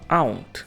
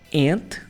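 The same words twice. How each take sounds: First: The vowel is not pronounced like an 'e'. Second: The vowel is pronounced like an 'e'.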